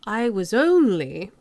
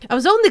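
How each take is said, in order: First: It is said in a posh British accent. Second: It is said in a Cockney accent. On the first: "but that's posh" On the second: "So how do I turn that Cockney?"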